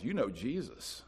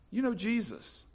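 First: Quiet statement. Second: Know lifted high and stretched; emphatic repeat. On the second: Preacher reassuring congregation, emphatic on know. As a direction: lean into know the second time. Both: Acted.

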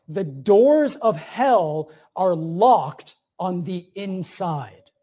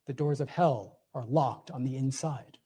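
First: Slow emphatic quote. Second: Soft echo. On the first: Quoting C S Lewis, slowed. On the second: Repeats the quote, dropped. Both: Acted.

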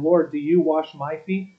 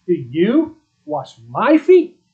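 First: Said in the usual way. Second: "Do you wash my feet?" higher, louder and slow, stress on "feet" rising; emphatic question. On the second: Shown as a demonstration. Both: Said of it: "That's an emphatic statement".

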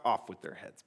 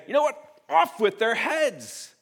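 First: Said in the usual way. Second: Higher, louder and slow, like a tyrant king; mock royal decree. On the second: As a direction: proclaim it from the throne with mock fury. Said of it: "to put the crown on ... and to say".

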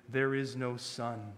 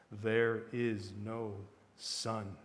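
First: Slow, grave pronouncement. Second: Very slow, deep, hushed chant; softer, deeper. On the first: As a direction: spell it out gravely, word by word. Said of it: "Slowly and gravely". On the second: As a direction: sink low and soft, drawing out each word. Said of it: "in a softer and deeper voice". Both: A narrator's reading.

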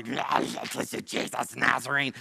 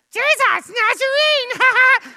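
First: Slow, guttural demon growl; demonic voice. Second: Very high, loud, drawn-out demon squeal; friend's demonic voice. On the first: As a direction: growl it out like a monster. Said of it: "talking about the voice". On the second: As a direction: screech it like a comic little demon. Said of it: "much more likely something like this". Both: Shown as a demonstration.

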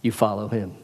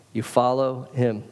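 First: You said firm, falling, the rest light; stress on You. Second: Slow down and hit follow; stress on follow, slower. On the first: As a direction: put the weight on You. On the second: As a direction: follow drawn out and pressed, slower pace. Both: Shown as a demonstration.

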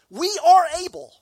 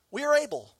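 First: Slow, high, loud mock boast, leaning on are; boastful disciples. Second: Mock boast. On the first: Preacher mimicking disciples answering Jesus, slow and loud. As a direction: drag out the brag. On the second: Repeats disciples' boast.

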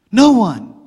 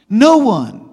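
The two takes are said the same way.

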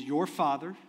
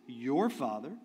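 First: "Your" lifted and leaned on, rising; stress on your. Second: "Your" stressed with a rise, "Father" trailing. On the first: Preacher to congregation, leaning on "Your" in "Your Father". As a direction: put weight on "Your" in "Your Father". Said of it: "didn't say the Father". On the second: Preacher to congregation, stressing "Your" to make it personal. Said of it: "He makes it personal". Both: Shown as a demonstration.

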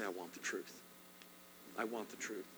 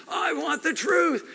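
First: Soft, lower private plea to God; quiet prayer. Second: High, slow shouted demand; movie shout. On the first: Shown as a demonstration. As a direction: pray it alone, barely above a breath. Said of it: "spend some time alone with God and say". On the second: Retold or imitated. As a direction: bellow it like the courtroom scene. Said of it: "and he screams".

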